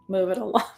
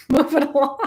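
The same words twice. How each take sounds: First: Said in the usual way. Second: High laughing repeat of the order; laughing mock order. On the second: Telling Cancers to move on, laughing. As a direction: shoo the crier along with a laugh.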